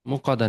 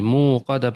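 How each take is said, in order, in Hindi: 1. पहला स्वर छोटा बोला जाता है। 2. पहला स्वर लंबा खींचकर बोला जाता है। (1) "मुक़द्दा नहीं" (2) "यहाँ पे खींचना है आपको"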